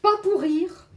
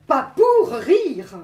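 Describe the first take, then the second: First: Said in the usual way. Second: "pour" punched loud and drawn out, slowly; stress on POUR. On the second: Acted. Poet repeats her line for effect, "pour" loudly stretched. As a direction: lean hard and long on "pour" before "rire".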